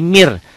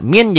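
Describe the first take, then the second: First: "mir" ending in r where n is written; n becomes r. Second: Said in the usual way. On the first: Shown as a demonstration. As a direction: close "mir" on a rolled r, no n. ("mir", bunyi n berubah jadi r) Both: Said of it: "Min jadi mir".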